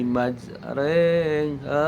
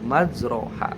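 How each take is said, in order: First: The vowel after r sounds like 'e'. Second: The vowel after r sounds like a full 'a'. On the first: This is how the word is actually recited. "imalah yang tadinya ra menjadi huruf e" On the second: This is how the word is written. "Tulisannya majroha"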